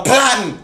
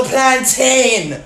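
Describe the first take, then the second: First: "plantain" as PLAN-tn, short last syllable; correct Caribbean pronunciation. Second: "plantain" as plan-TAIN, long last syllable; wrong pronunciation. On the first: Dialect detective giving the right "plantain", reduced PLAN-tn. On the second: Dialect detective rejecting a wrong "plantain", stressed plan-TAIN. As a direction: stretch "plantain" to rhyme with rain. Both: Shown as a demonstration. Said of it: "The word is not no plantain".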